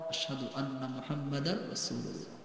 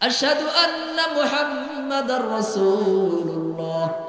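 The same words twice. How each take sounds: First: The phrase is said softly. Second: The phrase is said loudly. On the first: "আস্তে বলে একবার" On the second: "আবার জোরে বলে"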